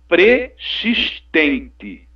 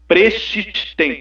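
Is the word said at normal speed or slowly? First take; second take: slowly; normal. First: The word is said very slowly. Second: The word is said at a normal speed.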